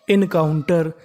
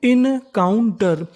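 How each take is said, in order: First: Said in the usual way. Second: encounter slowly split as in-kaun-tar; syllable by syllable. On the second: Shown as a demonstration. Teacher assembling a word for learners, syllable by syllable. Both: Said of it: "तो meaning बनी".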